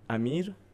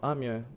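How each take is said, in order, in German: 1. Der Name wird persisch ausgesprochen. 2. Der Name wird luxemburgisch ausgesprochen. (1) "als ob Persisch" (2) "auf Lützeburg seht ihr einfach"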